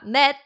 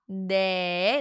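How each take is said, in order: First: The number ends with a t sound. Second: The number ends in an open vowel. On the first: The speaker calls it wrong. "not net" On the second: The speaker calls it right. "콜라 네"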